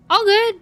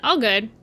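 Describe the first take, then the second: First: Much higher and louder, bright squeal; squeaky excited. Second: Said in the usual way. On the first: Real, not acted. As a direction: pop it up high and loud. Repeats phrase twice.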